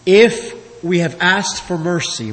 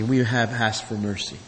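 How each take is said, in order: First: Said in the usual way. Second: Soft echo. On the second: Shown as a demonstration. Preacher echoing his own point to the congregation, softly. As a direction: repeat it much softer, almost to yourself.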